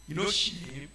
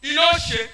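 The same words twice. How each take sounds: First: Softer, lower muttered question; quiet question. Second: Louder repeated challenge; loud question. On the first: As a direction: say it low first. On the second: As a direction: punch it out the second time. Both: Real, not acted.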